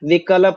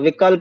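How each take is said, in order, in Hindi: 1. l को एक अलग, पूरे अक्षर की तरह बोला जाता है। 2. l को आधी ध्वनि की तरह, जुड़ा हुआ बोला जाता है। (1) "विकल्प नहीं बोलेंगे" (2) "आधा ल है ... जोड़ना पड़ेगा उसको"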